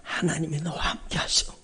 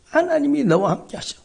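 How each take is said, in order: First: Breathy whisper of "하나님이 너와 함께 하셔"; hushed whisper, almost no voice. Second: "하나님이 너와 함께 하셔" rising high and full; high, ringing declaration; raised proclamation. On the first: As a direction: whisper it like a secret comfort. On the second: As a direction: proclaim it upward to the congregation. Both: Shown as a demonstration. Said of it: "그 말을 저한테 들려주셔".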